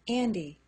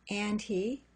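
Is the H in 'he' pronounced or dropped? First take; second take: dropped; pronounced. First: The H is dropped, sounding like 'Andy'. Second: The H in 'he' is pronounced.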